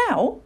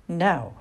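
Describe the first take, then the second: First: "Now?" lifted high as a question. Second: "Now," stated at an even, everyday pitch; firm confirmation. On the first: Owlet hesitates on the branch before flying, questioning. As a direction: ask "Now?" in a small doubtful voice. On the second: Mother sends owlet off the branch, firm confirmation. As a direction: answer "Now," calmly, as settled. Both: A narrator's reading.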